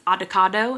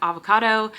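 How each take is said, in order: First: It is pronounced in a childlike, nonstandard way. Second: It is pronounced in the ordinary standard way. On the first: This imitates how a small child says it. "He says avocado" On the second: This is how the word is normally said. "instead of avocado"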